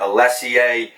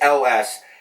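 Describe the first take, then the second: First: The name sounds like 'Alessie'. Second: The name sounds like the letters 'L S'. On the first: The speaker calls it wrong. "mispronounced over the years and butchered as ... Alessie" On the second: The speaker calls it right. "it is L S"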